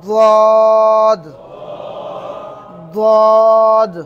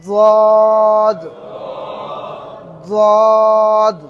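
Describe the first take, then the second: No difference in how they are said.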